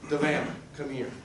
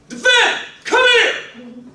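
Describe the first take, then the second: First: It is said in a calm, gentle voice. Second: It is barked out in a harsh voice. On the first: It is a simple, friendly request. "the first time Devana come here, she's like, oh, okay" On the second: The listener may be in trouble. "when you bark it out there, use I, I call my mean voice"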